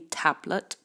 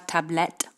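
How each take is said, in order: First: The stress falls on the first syllable. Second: The stress falls on the last syllable. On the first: The speaker calls it right. "première syllabe pour l'accentuation" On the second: The speaker calls it wrong. "c'est pas tablette en anglais"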